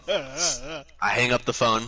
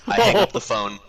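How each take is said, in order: First: Slow, drawn-out "I hang up the phone"; dramatic slow echo; slow repeat. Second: Higher and louder, punched; snappy announcement; punchline. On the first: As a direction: let each word hang. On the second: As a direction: hit "hang" hard and high. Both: Shown as a demonstration. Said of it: "repeats line for effect".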